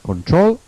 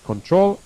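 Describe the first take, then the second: First: Control stressed on the last syllable, trol, rising. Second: Control stressed on the last syllable, trol, rising again. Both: Shown as a demonstration. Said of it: "I repeat".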